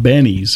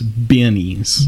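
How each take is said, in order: First: The first vowel sounds like in 'Ben'. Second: The first vowel sounds like in 'bin'. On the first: The speaker calls it wrong. "Not Benny's" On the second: The speaker calls it right. "I need to put my stuff in that bin over there"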